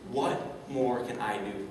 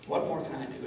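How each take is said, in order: First: Each word slow and weighted, "What more can I do?"; slow emphatic question. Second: Said in the usual way. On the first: Shown as a demonstration. Speaker teaching the audience a question to repeat, slow weighted. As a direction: lay down the key question slowly. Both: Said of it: "yell this back out to me".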